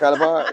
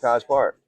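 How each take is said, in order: First: It is said in a local Atlanta accent. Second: It is said in a neutral, standard accent. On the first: It is how locals say it. "That's the College Park version" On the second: It is adjusted for an outside listener. "I'm talking to you. I'm gonna say College Park"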